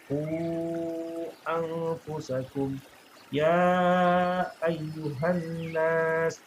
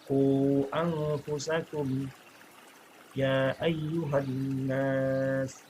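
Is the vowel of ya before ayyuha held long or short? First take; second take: long; short. First: The vowel of ya is held four counts. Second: The vowel of ya is held two counts. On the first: "Atau bisa dibikin empat" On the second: "boleh dibaca dua"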